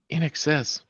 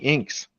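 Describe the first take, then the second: First: The name is said as three syllables. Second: The name is said as one syllable. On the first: The speaker calls it right. "It's it's in excess" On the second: The speaker calls it wrong. "I pronounced that as inks"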